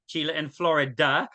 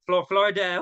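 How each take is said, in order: First: Said in the usual way. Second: "Florida" slipping out in a strange accent; weirdest accent. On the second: Real, not acted. Host tripping over "Florida" in the greetings, accidental weird accent. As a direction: stumble into an odd accent on "Florida". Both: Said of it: "that's the weirdest accent".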